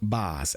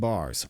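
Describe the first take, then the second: First: The word is said in a Boston accent. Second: The word is said in a standard accent.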